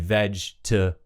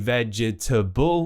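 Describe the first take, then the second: First: A middle sound of the word is dropped. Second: Every syllable of the word is pronounced. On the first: The speaker calls it right. "we just say vegetable" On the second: The speaker calls it wrong. "we don't say vegetable"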